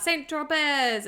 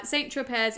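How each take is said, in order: First: Slow, higher and louder celebratory call; drawn-out playful whoop; mock yell. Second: Said in the usual way. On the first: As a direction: call it out like a cheer. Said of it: "he sort of yells out". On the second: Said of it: "is a famous little French coastal town".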